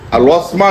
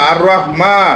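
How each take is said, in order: First: It starts with an l sound and 'las'. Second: It starts with an r sound and 'rah'. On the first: The speaker calls it wrong. "আর লসমা না" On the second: The speaker calls it right.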